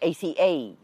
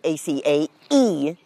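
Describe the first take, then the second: First: The word ends without a separate 'ee' sound. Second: A separate final 'ee' sound ends the word. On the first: The speaker calls it wrong. "most people you will hear will just say A-C-A" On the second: The speaker calls it right. "So I'll say A-C-A-E"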